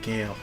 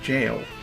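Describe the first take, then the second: First: The name begins with a hard G sound. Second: The name begins with a J sound. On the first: "that's why I keep pronouncing it Gale" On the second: "In Elden Ring, it's pronounced jail"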